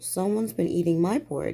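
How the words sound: It is exclaimed in a soft, low voice.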